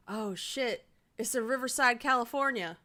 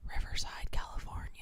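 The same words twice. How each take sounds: First: Surprised. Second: Whispering. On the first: Realizes the birthplace, exclaims. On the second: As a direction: whisper it under your breath. Reading to herself quietly. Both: Real, not acted.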